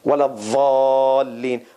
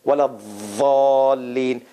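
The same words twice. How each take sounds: First: The emphatic consonant is said with a buzzing sound. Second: The same.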